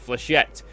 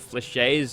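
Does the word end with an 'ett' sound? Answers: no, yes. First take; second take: yes; no. First: The word ends with a final 'ett' sound. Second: The word ends without a final 'ett' sound. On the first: The speaker calls it right. "so we'll go with flechette" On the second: The speaker calls it wrong. "I got told off for calling them fleches"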